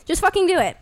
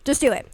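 First: Fucking punched higher and louder; stress on fucking. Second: Said in the usual way. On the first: Real, not acted. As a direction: hit fucking hard and high. Escalated repeat of urging.

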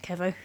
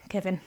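First: Kevo- cut off mid-word; misread name. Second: Said in the usual way. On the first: Real, not acted. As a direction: stumble into Kevo- and stop.

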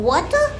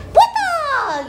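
First: Said in the usual way. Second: High, falling kung-fu cry on "Water!"; teriakan film kungfu. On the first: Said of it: "Sama seperti water gitu". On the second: Acted. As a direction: yelp "Water!" like a martial-arts movie fighter. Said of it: "Kayak film kungfu". (teriakan kungfu bernada tinggi)

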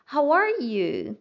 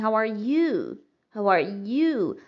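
First: "How are you" said slowly, stress on "are"; once more, slowly, leaning on "are"; model again. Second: "How are you" with the weight on "you"; stress on you. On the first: Teacher asks the class to hear it once more. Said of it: "Vamos mais uma vez". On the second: Teacher shows how some people stress "you". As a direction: push "you" harder than the rest. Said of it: "Dando uma força maior no you". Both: Shown as a demonstration.

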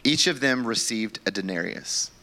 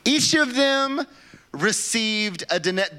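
First: Said in the usual way. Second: Slow and much higher, in mock disbelief; disbelieving reread. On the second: Shown as a demonstration. Pastor rereading the verse to his church, slow and incredulous. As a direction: reread it like you can't believe the words.

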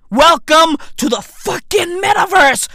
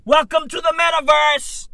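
First: A louder, higher fed-up rerun; louder repeat. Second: Said in the usual way. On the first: Real, not acted. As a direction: Welcome to the fucking metaverse shouted up, stress on metaverse.

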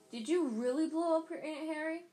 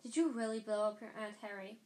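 First: Put-on loud, high, incredulous boy; Ron's voice. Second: Level, restrained question; very serious. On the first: Ron asks Harry about blowing up his aunt, loud and eager. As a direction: blurt it out loud and high, thrilled by the scandal. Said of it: "Wait, no, that's not Ron". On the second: A narrator's reading. Hermione questions Harry about Aunt Marge, very serious. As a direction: ask it gravely, without any excitement. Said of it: "in a very serious voice".

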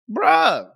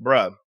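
First: Incredulous "bruh" with a falling end; exasperated. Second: Low, deadpan "bruh"; short, low groan of disbelief; unimpressed. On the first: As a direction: lift it into drawn-out disbelief. Escalated second reaction to hype. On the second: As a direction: drop the pitch, utterly over it. Deadpan reaction to mocked hype. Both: Acted.

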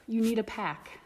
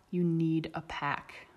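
First: Higher, pressing hard on need; urgent insistence. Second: Slow and settled, each word weighed; slow, firm repeat. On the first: Brina urges Remus to join, insistent. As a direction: push him to accept it. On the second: Brina repeats it to Remus, slow and firm. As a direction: say it gently but with finality. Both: A narrator's reading.

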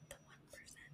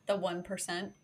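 First: Breathless unvoiced whisper. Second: Said in the usual way. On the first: Shown as a demonstration. Host whispering an echo of her own joke.

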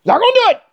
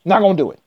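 First: "Not gonna do it" squeaked much higher; mock high refusal. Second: Said in the usual way. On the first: Refusing politics, squeaks "Not gonna do it" high.

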